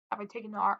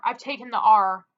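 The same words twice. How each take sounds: First: Soft, low-volume question to herself; musing question. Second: Said in the usual way. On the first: Real, not acted. Woman recalling her train rides, quiet musing question. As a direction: ask it under your breath, thinking back. Asks herself, then answers.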